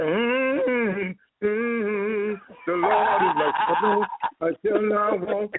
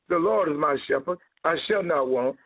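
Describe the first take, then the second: First: It is said with lively, emphatic delivery. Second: It is said plainly, without emphasis.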